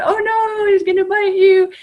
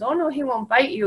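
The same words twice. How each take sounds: First: Hammed-up alarm, much higher and louder; mock scared warning. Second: Earnest, soothing reassurance; serious reassurance. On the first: Teasing the girl at graduation, mock alarm. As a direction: playfully pretend terror. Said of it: "she starts laughing". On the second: Retold or imitated. Dog owner reassuring the frightened girl, serious. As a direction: calmly reassure the child. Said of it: "and gets all serious".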